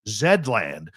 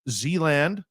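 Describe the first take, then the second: First: The Z is said as zed. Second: The Z is said as zee.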